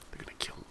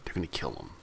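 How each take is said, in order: First: Whispered, ominous echo; sinister whisper. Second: Said in the usual way. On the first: Pretend. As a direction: breathe it out like a dark secret. Repeats the plot line, whispered.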